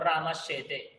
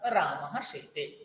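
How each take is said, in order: First: The two words run together without a break. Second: The two words are kept separate, ending in 'h'. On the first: The sound-joining rule is applied, as scholars do. "কেউ যদি বলে আমি এটা বলবো রামাশ্বেতে" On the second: The sound-joining rule is skipped, as ordinary people do. "আমরা যারা সরল মানুষ, আমরা রামাহ সেতে, এইভাবে আমরা কাজ চালাই"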